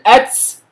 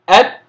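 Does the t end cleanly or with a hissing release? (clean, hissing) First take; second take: hissing; clean. First: The t ends with a hissing s-like release. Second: The t ends cleanly without any hiss. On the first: The speaker calls it wrong. "ولا أقول أتس كما ينطق البعض" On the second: The speaker calls it right. "التاء أت أت"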